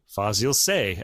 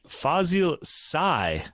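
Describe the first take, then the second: First: The name is said with a French pronunciation. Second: The name is said with a Turkish pronunciation. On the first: "But the French say" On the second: "would be the Turkish way to say it"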